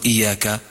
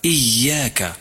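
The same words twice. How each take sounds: First: إياك said with a light ya, no doubling; missing shadda. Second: إياك with a doubled, stressed ya. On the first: Teacher demonstrates the error in إياك. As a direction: show the wrong إياك with a single ya. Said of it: "لا تقل إياك". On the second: Teacher models the correct إياك. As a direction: lean on the shadda in إياك. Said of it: "فالياء مشددة". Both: Shown as a demonstration.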